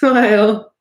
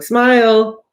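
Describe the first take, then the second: First: It sounds like a genuine, laughing smile. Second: It sounds like a forced, fake smile.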